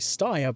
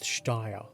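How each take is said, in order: First: The name is pronounced in a less German way. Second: The name is pronounced in a more German way. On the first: "I would default to say Steyr, but it sounds a bit less German" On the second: "so let's go with Steyr"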